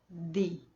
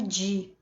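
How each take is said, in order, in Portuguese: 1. O d é um d seco e nítido, um som simples de d. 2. O d fica suavizado, com um som de dj chiado. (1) "seco, jamais chiado" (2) "o D I no espanhol não é di, jamais"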